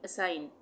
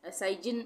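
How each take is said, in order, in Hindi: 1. n से पहले g की ध्वनि नहीं बोली जाती है। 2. अंतिम n से पहले g की ध्वनि बोली जाती है। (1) "जी साइलेंट" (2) "असाइजिन नहीं पढ़ेंगे"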